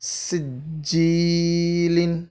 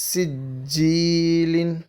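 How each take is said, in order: The two takes are said the same way.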